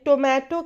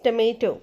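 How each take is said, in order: First: The first vowel sounds like 'oh'. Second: The first vowel sounds like 'uh'. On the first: The speaker calls it wrong. "बहुत सारे लोग टमाटर को English में टोमेटो कहते हैं" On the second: The speaker calls it right. "The correct pronunciation is टमेटो"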